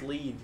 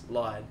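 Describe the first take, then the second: First: The vowel sounds like the word 'lee'. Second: The vowel sounds like the word 'lie'. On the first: The speaker calls it right. "it's lead because that's how it's pronounced" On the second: The speaker calls it wrong. "which you'd pronounce lied"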